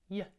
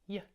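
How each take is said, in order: Both takes have the same delivery.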